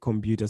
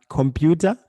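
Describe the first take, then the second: First: The middle consonant sounds almost like a B. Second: The middle consonant is a clear P sound. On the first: This is how it is said in Shona. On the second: This is the English word.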